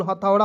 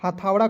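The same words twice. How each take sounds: First: हथौड़ा with a short first vowel, ha-thau-ra; correct pronunciation. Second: हथौड़ा with the first vowel stretched to haa-thau-ra; wrong pronunciation. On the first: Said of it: "हथौड़ा कोई शब्द नहीं होता है". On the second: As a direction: say हथौड़ा with a long aa at the start. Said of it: "कोई शब्द नहीं होता है". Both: Shown as a demonstration.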